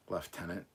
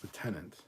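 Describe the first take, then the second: First: "Lieutenant" as "lef-TEN-ant"; British pronunciation. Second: "lieutenant" with no f, "loo-TEN-ant"; American pronunciation. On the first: Streamer puzzles over a Britishism, British pronunciation. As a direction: put an f in "Lieutenant", British style. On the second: Streamer corrects a Britishism, American pronunciation. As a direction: say "lieutenant" the American way, without any f. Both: Shown as a demonstration. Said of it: "that's one Britishism I cannot".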